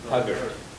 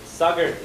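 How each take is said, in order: First: The word begins with a T sound. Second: The word begins with an S sound.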